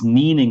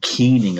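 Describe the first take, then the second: First: The word is said the Irish way. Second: The word is said the Scottish way. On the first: "It's kneeling in Ireland usually" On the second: "and keening in Scotland"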